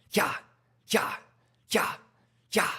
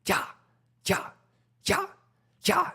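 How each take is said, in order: Both takes have the same delivery.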